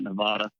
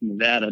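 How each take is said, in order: First: It uses the East Coast pronunciation of the name. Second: It uses the local pronunciation of the name. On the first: The speaker calls it wrong. "most people on the East Coast, myself included, before I got hired, say Nevada" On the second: The speaker calls it right. "how to say Nevada properly"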